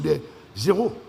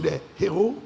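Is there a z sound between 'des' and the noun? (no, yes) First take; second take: yes; no. First: A z sound links the two words. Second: No z sound links the two words. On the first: They are nobodies. The speaker calls it wrong. "ils ont oublié qu'il ne fallait pas faire la liaison" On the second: They are heroes. The speaker calls it right. "il ne fallait pas faire la liaison parce que le H de héros est aspiré"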